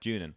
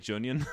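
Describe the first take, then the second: First: The name ends without an 'onion' sound. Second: The name ends like the word 'onion'. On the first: The speaker calls it right. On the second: The speaker calls it wrong.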